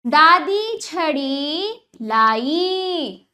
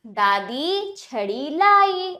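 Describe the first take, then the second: First: दादी छड़ी लाई very drawn out, word by word; teacher's very slow first reading of दादी छड़ी लाई; slow demonstration reading. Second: दादी छड़ी लाई slow but connected; joined-up reading. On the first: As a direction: stretch every long vowel in दादी छड़ी लाई. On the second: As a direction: join दादी छड़ी लाई into one measured sentence. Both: Shown as a demonstration. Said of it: "अब वाक्यों का उच्चारण करते हैं".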